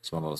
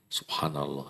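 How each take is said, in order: First: It is said flatly, without feeling. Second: It is said with lively feeling.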